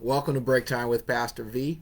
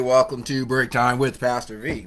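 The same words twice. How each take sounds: First: The voice is plain and ordinary, not put on. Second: The voice is deep and rich, like radio. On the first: "no, seriously" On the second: "that came out nice and rich. My my new radio voice"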